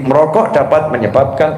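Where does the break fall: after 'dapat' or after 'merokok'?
after merokok. The break comes after the word 'merokok'. Smoking can cause cancer. The speaker calls it wrong. "Bapak tadi kan membacanya begini"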